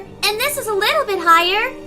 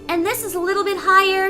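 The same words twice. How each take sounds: First: The voice is pitched far above normal. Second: The voice is pitched clearly above normal.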